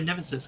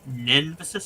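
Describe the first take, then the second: First: The word is said quickly in a rushed phrase. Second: The word is said at a normal, careful pace. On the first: "If I say it fast" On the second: "I just did"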